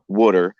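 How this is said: The word is said in a Philadelphia accent. "the colloquial pronunciation here in Philadelphia, Delaware Valley"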